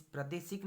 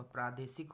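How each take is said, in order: First: प्रादेशिक with short 'pra'; wrong form. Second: प्रादेशिक with long 'praa', falling; correct form. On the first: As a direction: clip the first vowel of प्रादेशिक short. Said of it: "नहीं होगा". (प्रादेशिक, 'प्र' छोटा) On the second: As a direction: stretch the first vowel of प्रादेशिक. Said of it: "होगा". (प्रादेशिक, 'प्रा' लंबा) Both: Shown as a demonstration.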